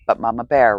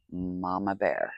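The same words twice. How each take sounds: First: Mama Bear called out loud and strong; "Mama Bear" called out loud, falling at the end; loud declaration. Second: "Mama Bear" said softly and slowly, drawn out; "Mama Bear" hushed and slowed; quiet slow repeat. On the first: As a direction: proclaim Mama Bear like a battle cry. Proudly declaring herself Mama Bear. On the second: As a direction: murmur Mama Bear again, sinking into it. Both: Real, not acted.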